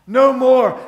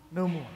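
First: Loud, forceful "no more"; raised voice, driving it home; emphatic declaration. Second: Low, soft "no more"; soft, low and final; hushed declaration. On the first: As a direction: proclaim it firmly to the room. Repeats it with force. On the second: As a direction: say it quietly, letting it drop. First of two contrasting takes. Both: Real, not acted.

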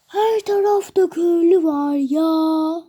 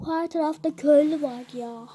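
First: Louder, slow, put-on exclamation of the same line; loud mock exclaim. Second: Said in the usual way. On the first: Gamer telling viewers villagers are everywhere, loud silly exclaim. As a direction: belt it out in a silly voice.

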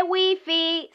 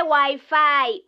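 First: "wifi" said the Spanish way, wee-fee. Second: "wifi" said the English way, why-fye, slowly. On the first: Correcting her boyfriend, "wifi" said wee-fee. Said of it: "se dice wifi". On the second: Correcting her boyfriend, "wifi" said why-fye. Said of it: "No se dice wifi". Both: Shown as a demonstration.

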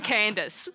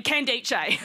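First: Said in the usual way. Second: Candice said as can-DAY-chay; absurd name pronunciation. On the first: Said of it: "Sorry, I mean". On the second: Shown as a demonstration. Comic correcting friend's name, Candice mispronounced as can-DAY-chay. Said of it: "Sorry, I mean Candice".

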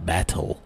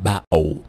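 First: Said in the usual way. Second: Battle as ba'ow, glottal T and w for L; Cockney Battle. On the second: Shown as a demonstration. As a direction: swallow the T and round the L in Battle. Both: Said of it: "ما يقول battle".

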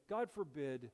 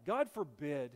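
First: Said in the usual way. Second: Louder, pressed God forbid; "God forbid" pushed out loud and firm; emphatic plea. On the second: Acted. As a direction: lean hard into "God forbid". Pastor repeats the plea twice.

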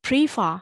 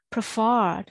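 First: PREE-fer, stress wrongly on the start of "prefer"; mis-stressed "prefer" as a counterexample, PREE first; wrong first-syllable stress. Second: Pre-FERRED, "preferred" weighted on the last syllable; corrected "preferred", short PRE and stressed FERRED; second-syllable stress. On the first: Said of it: "အဲ့လိုမဟုတ်ဘူးနော်". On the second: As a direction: lean long and hard on the FERRED of "preferred". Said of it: "နောက်မှာ stress က". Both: Shown as a demonstration.

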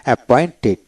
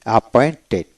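Both takes have the same delivery.

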